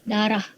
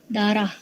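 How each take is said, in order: No difference in how they are said.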